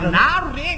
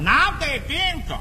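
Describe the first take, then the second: First: It is said fast and slurred together. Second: It is said more slowly, syllables more apart.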